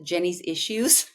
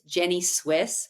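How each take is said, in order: First: The name ends with the word issues. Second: The name ends with the word Swiss. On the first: The speaker calls it wrong. "Which it's not Jenny's Issues" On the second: The speaker calls it right. "it's Jenny Swiss"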